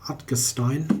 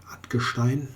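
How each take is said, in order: First: The name is said with an English-style pronunciation. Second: The name is said with a German pronunciation. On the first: "English type of pronunciations of names" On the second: "in German"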